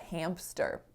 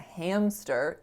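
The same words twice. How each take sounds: First: A p sound is added after the m. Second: No p sound is added after the m. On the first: The speaker calls it wrong. "you know it's not a hamster" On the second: The speaker calls it right. "it's a hamster, no P"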